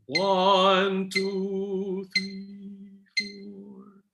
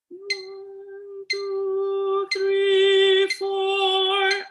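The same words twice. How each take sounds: First: It starts loud and fades softer. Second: It starts soft and grows louder.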